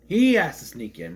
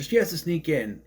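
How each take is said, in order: First: He stressed, the rest falling away. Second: Said in the usual way. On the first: Real, not acted. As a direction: correct yourself by hitting the word He. Correcting she to he.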